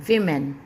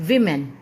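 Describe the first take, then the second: Both takes have the same delivery.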